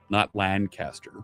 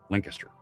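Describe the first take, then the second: First: It is said the New York way. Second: It is said the local Pennsylvania way. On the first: The speaker calls it wrong. "they pronounce it differently in New Jersey and in New York" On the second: The speaker calls it right. "but Lancaster"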